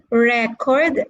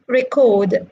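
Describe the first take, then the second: First: "record" stressed on the first syllable, RE-cord; "record" as REK-ord, second syllable weaker; noun stress. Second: "record" stressed on the second syllable, re-CORD; "record" as ri-KORD, first syllable weak; verb stress. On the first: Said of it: "as a noun". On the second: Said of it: "as a verb". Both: Shown as a demonstration.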